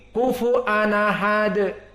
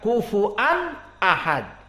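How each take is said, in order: First: The glottal stop drops and the words run together. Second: A glottal stop is heard before 'ahad'. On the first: This is the Warsh reading, where the hamzah's vowel moves to the preceding tanwin. The speaker calls it right. "tetapi kufu anahad" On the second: This is the other reading, not the one being taught. The speaker calls it wrong. "bukan kufuan ahad"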